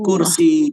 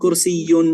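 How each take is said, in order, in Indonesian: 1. Kata ini berakhir setelah bunyi i. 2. Kata ini berakhir dengan akhiran -yun tambahan. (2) "Bukan kursiyun"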